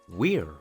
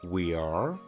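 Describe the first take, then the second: First: The words are merged into one contracted syllable. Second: Two separate full words are said. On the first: The speaker calls it right. "mejor di" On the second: The speaker calls it wrong. "En vez de decir"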